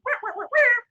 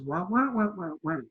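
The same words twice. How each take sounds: First: High, loud trumpet-like wahs. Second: Trumpet-like answer. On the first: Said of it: "all I hear is". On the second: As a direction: answer as a subdued muted trumpet. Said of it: "turns around and answers". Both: Retold or imitated.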